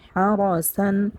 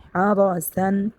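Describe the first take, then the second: The two takes are said the same way.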